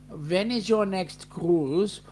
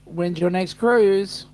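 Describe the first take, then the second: First: It is said in a put-on German accent. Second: It is said in the speaker's normal accent.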